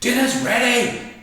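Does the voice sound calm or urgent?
urgent. It is said in an urgent, stern tone. You must come quickly or miss out. "you know you better get there quick"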